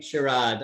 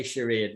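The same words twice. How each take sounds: First: "charade" with an AH in the second syllable; her pronunciation. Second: "charade" with an AY in the second syllable; own pronunciation. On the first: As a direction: say "charade" to rhyme with "hard" without the R, "shuh-RAHD". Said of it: "But she's saying charade". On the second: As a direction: say "charade" to rhyme with "made", "shuh-RAYD". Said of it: "I say charade". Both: Shown as a demonstration.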